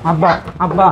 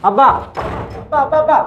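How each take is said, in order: First: Said in the usual way. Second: Much higher, pleading cry; son-in-law calling desperately after his father-in-law. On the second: Acted. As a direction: call out desperately.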